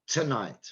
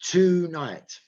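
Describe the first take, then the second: First: The stress is on the second syllable. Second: The stress is on the first syllable. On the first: The speaker calls it right. "because night is stressed" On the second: The speaker calls it wrong.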